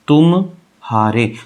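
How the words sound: There is a gap after tum.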